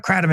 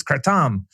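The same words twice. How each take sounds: First: Kratom said the usual English way; everyday pronunciation. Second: Kratom with a long, weighted "TOM"; corrected Thai pronunciation. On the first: Quoting ex-girlfriend correcting the word, everyday pronunciation of "kratom". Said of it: "ex-girlfriend who was from Thailand said". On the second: Quoting Thai ex-girlfriend's correction, "kratom" as kra-TOM. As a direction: say "kratom" as kra-TOM, second syllable drawn out. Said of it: "It's not kratom". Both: Retold or imitated.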